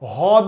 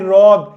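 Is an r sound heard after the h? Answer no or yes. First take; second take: no; yes. First: No r sound follows the h. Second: An r sound follows the h. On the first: The speaker calls it wrong. "হদ না" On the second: The speaker calls it right. "এটার উচ্চারণ কিন্তু ভাই হ্রদ"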